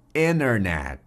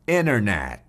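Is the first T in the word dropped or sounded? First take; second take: dropped; dropped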